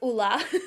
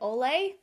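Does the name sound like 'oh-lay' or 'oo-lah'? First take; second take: oo-lah; oh-lay. First: The name is said like 'oo-lah'. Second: The name is said like 'oh-lay'. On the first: The speaker calls it right. "It's Ulla" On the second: The speaker calls it wrong. "I've my entire life been calling it Olay"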